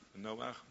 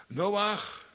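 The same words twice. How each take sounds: First: Plain. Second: High, loud call of the name Noach. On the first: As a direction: answer the call quietly to yourself. Name repeated after the call. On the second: Calling out to Noah. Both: Acted.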